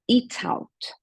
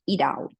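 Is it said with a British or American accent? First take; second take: British; American. First: It has a British accent with a clear T. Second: It has an American accent with a flapped T.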